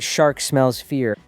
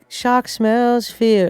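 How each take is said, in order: First: The R sounds are clearly pronounced. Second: The R sounds are dropped. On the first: "I'm not saying shark smells fear" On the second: "I'm not even pronouncing the R"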